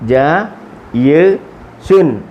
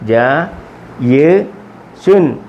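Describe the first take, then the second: The two takes are said the same way.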